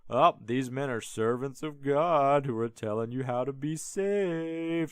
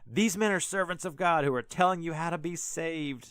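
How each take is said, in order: First: It is said in a mocking tone. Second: It is said sincerely and straight.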